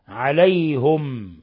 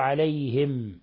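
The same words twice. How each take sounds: First: The h is followed by a u vowel. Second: The h is followed by an i vowel. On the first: "بضم الهاء" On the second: "بالكسر"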